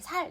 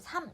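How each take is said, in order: First: The word ends with an l sound. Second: The word ends with an m sound. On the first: The speaker calls it wrong. "살 이렇게 안 하고" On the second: The speaker calls it right. "삼 이렇게 얘기하죠"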